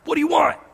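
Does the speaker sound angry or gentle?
angry. It is asked in an angry, irritated tone.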